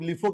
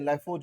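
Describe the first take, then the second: First: The first vowel sounds like 'ee'. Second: The first vowel sounds like 'eye'. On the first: "कोई लोग लिफो कहते हैं" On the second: "कोई लोग कहते हैं लाइफो"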